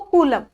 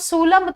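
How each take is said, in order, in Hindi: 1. शब्द की शुरुआत k ध्वनि से होती है। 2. शब्द की शुरुआत s ध्वनि से होती है। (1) "क्या बोला है जिसको" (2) "मैंने इसको सूलम तो नहीं बोला"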